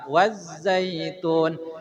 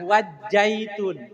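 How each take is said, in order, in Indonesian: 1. Konsonan tengahnya bunyi z. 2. Konsonan tengahnya bunyi j. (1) "tapi wazza" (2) "jangan wajjaitun"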